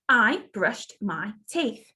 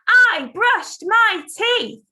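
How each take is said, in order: First: It is said at a normal speaking volume. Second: It is shouted at a loud volume. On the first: "Let me say it" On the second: "Shout it"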